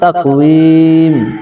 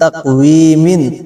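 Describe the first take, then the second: First: The word ends on a bare m sound. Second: The word ends with an added -in sound. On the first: The reader stops on this word. "অক্ষ করলে তাকওয়িম" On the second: The reading continues past this word. "মিম দুই জের মিন"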